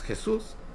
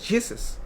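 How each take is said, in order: First: The name is pronounced with Spanish sounds. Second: The name is pronounced with English sounds. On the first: "yo hablo español, es Jesús" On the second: "en inglés Jesus"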